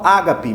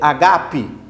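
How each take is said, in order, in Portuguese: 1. A tônica cai na primeira sílaba. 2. A tônica cai em uma sílaba posterior. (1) "muitos falam ágape" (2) "mas é agape"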